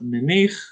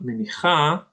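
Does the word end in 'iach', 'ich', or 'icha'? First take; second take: ich; icha. First: The word ends with a plain 'ich' sound. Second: The word ends with an extra 'a' vowel. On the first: "It's not menich" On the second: "it's not menicha"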